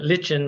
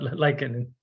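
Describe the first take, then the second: First: It uses the pronunciation heard in England. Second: It uses the speaker's own non-English pronunciation. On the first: "in England" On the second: "but lichen"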